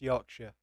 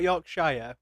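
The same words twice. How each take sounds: First: The ending is a reduced 'sher' sound. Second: The ending is a full 'shire' sound. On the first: The speaker calls it right. "It's Yorkshire" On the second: The speaker calls it wrong. "it's not Yorkshire. We're not hobbits"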